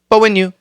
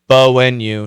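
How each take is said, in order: First: The phrase is said very quickly. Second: The phrase is said slowly and carefully. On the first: The speaker calls it right. "It's got to be really fast" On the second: The speaker calls it wrong. "You can't say but when you"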